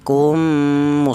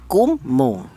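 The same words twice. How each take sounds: First: The first m merges into a long nasal m. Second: The first m is said separately and clearly. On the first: The speaker calls it right. "langsung mem yang pertama langsung menyatu ke huruf mem yang kedua" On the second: The speaker calls it wrong. "cara bacanya kalau idhar kummu, salah ya"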